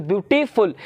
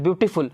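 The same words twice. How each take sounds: First: "beautiful" stretched as beauty, then फुल; split into syllables. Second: Said in the usual way. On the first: Shown as a demonstration. Teacher showing students where "beautiful" breaks, split after beauty. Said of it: "लेकिन pronounce कीजिए तो". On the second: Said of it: "बोल तो एक बार में लेते हैं".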